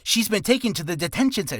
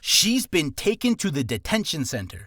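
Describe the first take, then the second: First: It is said fast. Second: It is said slowly, each word distinct.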